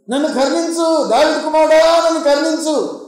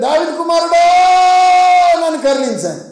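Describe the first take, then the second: First: High, pleading call of a beggar. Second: High, long-held shouted plea; louder shouting. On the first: Blind man calls to passing Lord for mercy, crying out. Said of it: "కేకలు వేస్తున్నాడు ఒక గుడ్డివాడు". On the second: Silenced blind man cries harder to the Lord, shouting loudly. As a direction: imitate a desperate cry, stretching the name out. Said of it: "మరీ గట్టిగా అరచడం మొదలుపెట్టింది". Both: Retold or imitated.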